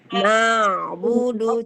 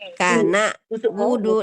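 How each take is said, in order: First: The middle consonant is a moderate pharyngeal sound. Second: The middle consonant is a plain glottal stop. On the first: The speaker calls it right. "Se sedikit saja tawasud antara tertahan dan antara mengalir" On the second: The speaker calls it wrong. "itu berarti terbaca hamzah"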